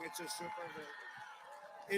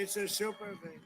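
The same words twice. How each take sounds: First: Slow, soft murmured aside. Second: Said in the usual way. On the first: Real, not acted. Speaker at a rally murmuring "It's a super thing" softly to himself. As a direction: drop it low and slow, almost to yourself.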